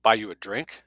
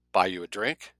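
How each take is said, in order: First: Louder repeat. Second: Said in the usual way. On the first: A narrator's reading. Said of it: "she repeated".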